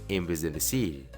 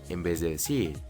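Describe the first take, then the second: No difference in how they are said.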